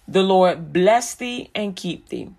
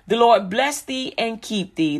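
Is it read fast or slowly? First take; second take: slowly; fast. First: It is read at a slower pace. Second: It is read at a quicker pace.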